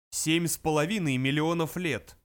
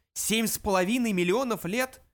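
First: Said in the usual way. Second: High, incredulous question; stunned echo, pitched up with a questioning lift; astonished exclamation. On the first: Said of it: "произнёс пронзительный интеллектомат". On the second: A narrator's reading. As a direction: exclaim it in shocked disbelief. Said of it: "дружно воскликнули".

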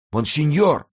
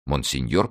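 First: «Монсеньор!» громко и намного выше, с падением в конце; мольбой выкрикнуть «Монсеньор!»; восклицание. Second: «Монсеньор» спокойно, с вопросительным подъёмом в конце; переспросить «Монсеньор» с удивлением; недоумённый повтор. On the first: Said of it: "воскликнул нищий". (нищий на коленях взывает «Монсеньор!») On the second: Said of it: "повторил Ганди". (Ганди недоверчиво переспрашивает «Монсеньор») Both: A narrator's reading.

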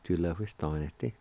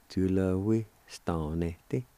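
First: "Julehuistanete" run together at normal pace, trailing softer; whole word, joined. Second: "Julehuistanete" in two slow chunks; broken down slowly. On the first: Teacher repeating the long word whole, joined-up. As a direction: say Julehuistanete in one smooth, softer go. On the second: Teacher making a long word simpler, broken down slowly. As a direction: ease through Julehuistanete part by part. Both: Shown as a demonstration. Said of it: "Break it down something like that".

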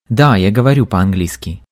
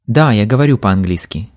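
The two takes are said the same way.

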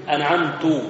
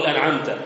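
First: أنعمت ending in "tu" as first person; wrong vowel ending. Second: أنعمت ending in "ta" as addressing God; correct vowel ending. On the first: Teacher showing a Fatiha error, أنعمت ending in "tu". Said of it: "أنعمت يبقى المتكلم". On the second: Teacher giving the correct Fatiha reading, أنعمت ending in "ta". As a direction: say أنعمت with a clear "ta" ending, the right way. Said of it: "لا أقول أنعمت". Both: Shown as a demonstration.

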